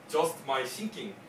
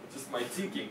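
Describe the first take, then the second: First: Thinking begins with an 's' sound. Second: Thinking begins with a 'th' sound. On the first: The speaker calls it wrong. "But if you say S" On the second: The speaker calls it right. "차라리 이렇게 하는 게 더 좋을 것 같아요"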